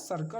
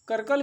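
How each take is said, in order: First: The word begins with an s sound. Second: The word begins with a k sound. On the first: The speaker calls it right. "सही जो word होता है" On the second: The speaker calls it wrong. "करकल भी नहीं पढ़ेंगे"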